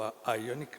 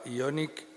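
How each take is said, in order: First: Ioniq said with an initial "eye" sound; English-style pronunciation. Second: Ioniq said with an initial "ee" sound; Spanish-style pronunciation. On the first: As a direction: try Ioniq the English way, tentatively. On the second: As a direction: read Ioniq as written in Spanish. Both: Shown as a demonstration. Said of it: "no sé cómo se pronuncia".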